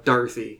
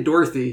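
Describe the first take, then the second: First: "Dorothy" with first syllable like Darth; DAR pronunciation. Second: "Dorothy" with first syllable like door; DOR pronunciation. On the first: Co-host showing how Jack says it, "Dorothy" as DAR-thee. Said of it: "Jack says more of a". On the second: Co-host showing what Jack doesn't say, "Dorothy" with a door vowel. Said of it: "he doesn't say Dorothy". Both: Shown as a demonstration.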